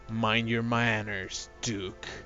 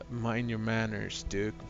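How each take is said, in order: First: It is said in the speaker's natural voice. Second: It is said in a put-on voice for T-Ram.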